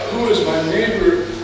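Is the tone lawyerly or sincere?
sincere. It is asked in a plain, sincere tone.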